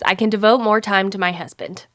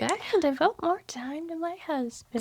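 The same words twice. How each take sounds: First: It is said in the speaker's normal accent. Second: It is said in an odd, put-on accent. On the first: "this is a quote that she says" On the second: "she said it in a weird accent"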